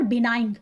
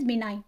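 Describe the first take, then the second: First: "benign" with the g voiced at the end; wrong pronunciation, G sounded. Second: "benign" ending softly on n, no g; silent G. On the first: ("benign" के अंत में ग बोलते हुए) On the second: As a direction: say "benign" as bi-nine. ("benign" में ग silent, बिनाइन) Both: Shown as a demonstration. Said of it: "जी silent होगा इसमें".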